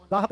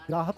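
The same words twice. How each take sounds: First: गाहक with a plain "gaa", no r; wrong pronunciation. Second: ग्राहक opening on "graa"; correct pronunciation. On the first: Teacher shows the colloquial mistake, mispronounced. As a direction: say गाहक without the r. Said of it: "गाहक नहीं होता". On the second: Teacher gives students the right word, correctly pronounced. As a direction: put the r into ग्राहक. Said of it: "ग्राहक होता है". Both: Shown as a demonstration.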